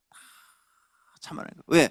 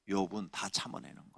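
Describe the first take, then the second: First: 거예요 drawn out slowly with a falling close; slow emphatic repeat. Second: Said in the usual way. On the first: Acted. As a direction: lean slowly on 참아내는 거예요. Repeats Job endures everything. (거예요를 천천히 늘이며 내려서 강조)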